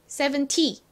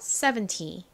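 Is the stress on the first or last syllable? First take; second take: last; first. First: The stress is on the last syllable. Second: The stress is on the first syllable. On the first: It may be heard as seventeen. The speaker calls it wrong. "이렇게 뒤에 강세를 줘버리면" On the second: It clearly means seventy. The speaker calls it right. "앞에 강세 잊지 마세요"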